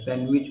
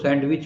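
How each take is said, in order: First: The d sound is silent. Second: The d sound is pronounced. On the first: The speaker calls it right. "सैंड में डी silent है" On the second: The speaker calls it wrong. "इसको सैंडविच बोलते हैं हम लोग"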